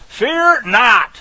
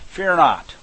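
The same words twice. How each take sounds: First: "Fear not" louder, with a high "Fear"; proclaimed command. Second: Said in the usual way. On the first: Shown as a demonstration. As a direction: announce "Fear not" like Moses commanding the people. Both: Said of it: "here's another way to put it".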